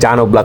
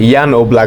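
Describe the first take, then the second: First: The first name begins with a J sound. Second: The first name begins with a Y sound. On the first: This is how the name is said in English. "ইংলিশে উচ্চারণ করতে গেলে জান Oblak হয়ে যায়" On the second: This is how the name is said natively. "মানে ইয়ান Oblak বলে"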